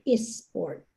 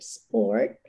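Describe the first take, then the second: First: An extra vowel is added before the s. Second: The word starts directly with the s sound.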